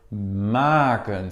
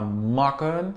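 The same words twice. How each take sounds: First: The first vowel is long. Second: The first vowel is short. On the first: The speaker calls it right. "c'est maken, c'est long" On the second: The speaker calls it wrong. "c'est pas maken"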